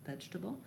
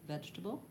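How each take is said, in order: Both takes have the same delivery.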